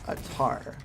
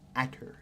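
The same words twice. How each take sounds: First: The word is said with an American pronunciation. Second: The word is said with a British pronunciation. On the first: This is the way the speaker habitually says it. "I pronounce it Atar because I am a plebeian" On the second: This may be the proper way to say it. "perhaps it is the confounding Atar"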